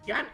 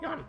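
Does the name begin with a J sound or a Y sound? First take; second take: J sound; Y sound. First: The name begins with a J sound. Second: The name begins with a Y sound.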